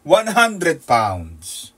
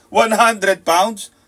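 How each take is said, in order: First: "one hundred pounds" stretched very slowly, each word weighted; slow emphasis. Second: "one hundred pounds" very slow, louder and higher, each word hammered; building emphasis. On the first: (dahan-dahang binibigkas ang "one hundred pounds") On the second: (malakas at mabagal na "one hundred pounds") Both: Shown as a demonstration. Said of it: "Dumating ng alas tres, one hundred pounds".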